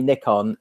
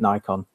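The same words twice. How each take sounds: First: The name is said the European way. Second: The name is said the American way. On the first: "Why do Europeans call this company Nikon" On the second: "and Americans call it Nikon?"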